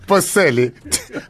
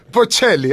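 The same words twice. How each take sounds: First: "[name]" said with an s, bo-SELL-ee; slow, higher "[name]" with s for ch; butchered pronunciation. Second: "[name]" said with a ch, bo-CHELL-ee; high, loud "[name]" with a clear ch; correct pronunciation. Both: Shown as a demonstration. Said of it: "I butchered [name]".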